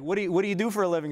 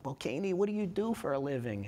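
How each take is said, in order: First: Put-on high, fast mom question without the accent. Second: Put-on a lightly done Jewish mom accent. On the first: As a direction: rattle it off like mom, dropping the accent. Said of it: "It didn't work well". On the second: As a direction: ask it like a Jewish mother, accent on. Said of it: "that was my Jewish mom accent".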